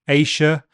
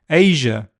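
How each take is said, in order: First: The middle consonant is a voiceless 'sh' sound. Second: The middle consonant is a voiced 'zh' sound. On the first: "could be sh" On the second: "or zh"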